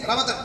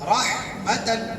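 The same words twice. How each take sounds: First: The word is said quickly without holding. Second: The word is said slowly with held sounds. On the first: The speaker calls it wrong. "जल्दी नहीं, रहमतन नहीं" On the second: The speaker calls it right. "मैंने कहा ठहराओ"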